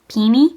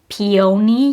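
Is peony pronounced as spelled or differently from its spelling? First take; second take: differently; as spelled. First: The word is pronounced differently from its spelling. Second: The word is pronounced the way it is spelled. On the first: The speaker calls it right. "but apparently it's peony" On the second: The speaker calls it wrong. "I pronounce it like peony, you know, which is like how it's spelled"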